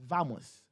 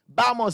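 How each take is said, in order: First: The first consonant sounds like a v. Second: The first consonant sounds like a b. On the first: This is how Latin Americans say it. "the Cubans and the Latin Americans would say vamos" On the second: This is how people in Spain say it. "Spanish players... they say this thing"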